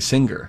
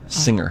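First: It has a hard g sound, rhyming with finger. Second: It has no hard g sound after the ng. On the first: The speaker calls it wrong. "We say finger, but we don't say singer" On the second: The speaker calls it right. "No, we say singer"

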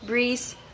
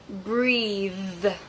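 First: The word ends in a buzzing z sound. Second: The word ends in a voiced th sound. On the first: The speaker calls it wrong. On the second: The speaker calls it right.

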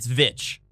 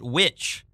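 First: The word begins with a V sound. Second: The word begins with a W sound. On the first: The speaker calls it right. "it's Vitch with a V" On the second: The speaker calls it wrong. "people keep calling it Witch"

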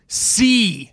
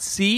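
First: The word falls firmly like a command. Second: The word rises like a question. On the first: The speaker orders the listener to see. The speaker calls it right. "It's an imperative" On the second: The speaker is asking whether the listener sees. The speaker calls it wrong. "It's not questioning. I feel like you had a hint of question in your voice"

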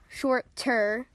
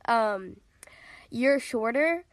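First: The middle consonant sounds like a T. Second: The middle consonant sounds like a D. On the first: "If anyone needs to clarify that" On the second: "You said it with a D and not a T"

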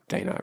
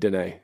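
First: The name ends with an 'uh' sound. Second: The name ends with an 'ay' sound. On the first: The speaker calls it wrong. "I've been saying it wrong" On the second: The speaker calls it right. "pronounced Renee with a D"

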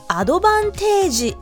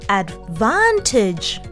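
First: It is said with Japanese-style katakana pronunciation. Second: It is said with English pronunciation. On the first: The speaker calls it wrong. "アドバンテージではなく" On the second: The speaker calls it right. "advantage という発音を意識しながら"

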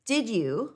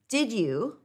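First: The two words are said separately and clearly. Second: The same.

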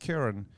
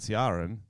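First: The name is said the Irish way. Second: The name is misread from its spelling. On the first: This is how Irish people say the name. The speaker calls it right. "The Irish people are like, oh, that's Kieran" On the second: This is how other listeners say the name. The speaker calls it wrong. "all the rest of our listeners are like, that's fucking Ciaran"

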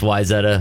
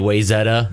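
First: It is said the way locals pronounce it. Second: It is said the way outsiders pronounce it. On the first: The speaker is from the place. The speaker calls it right. "If you're from there, it's Wayzetta" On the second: The speaker is not from the place. The speaker calls it wrong. "if you're not from there, you say Wayzetta"

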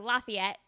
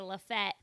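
First: The name is said in its full form. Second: The name is said in a shortened form. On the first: This is how people elsewhere say it. "not Lafayette" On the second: This is how locals in Tennessee say it. "They also say Lafette"

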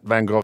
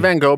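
First: The name is said with an English pronunciation. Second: The name is said with an American pronunciation. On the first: The speaker calls it wrong. "I'm pronouncing it the English way" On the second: The speaker calls it right. "You're pronouncing it the American way"

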